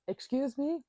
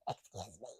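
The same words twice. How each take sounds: First: It is said in a strong, forceful voice. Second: It is said in a weak, feeble voice.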